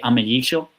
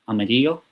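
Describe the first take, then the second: First: It is said in an Argentine or Uruguayan accent. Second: It is said in a non-Argentine Spanish accent. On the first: "some people would say amarillo if you're from Argentina or Uruguay" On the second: "I say amarillo"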